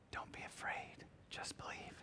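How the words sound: It is said in a whisper.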